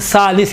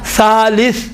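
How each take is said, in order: First: The word begins with an 's' sound. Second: The word begins with a 'th' sound. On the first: The speaker calls it wrong. "सालिस कहते हैं" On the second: The speaker calls it right. "सालिस कोई भी नहीं कहता"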